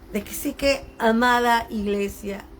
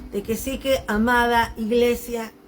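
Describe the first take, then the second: The two takes are said the same way.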